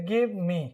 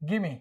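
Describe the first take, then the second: First: It is said as two full separate words. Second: It is said as one reduced blended word.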